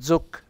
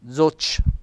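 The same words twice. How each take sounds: First: The word ends in a hard k sound. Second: The word ends in a soft ch sound. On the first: The speaker calls it right. "una C e una H per dire zoc" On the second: The speaker calls it wrong. "non zoc"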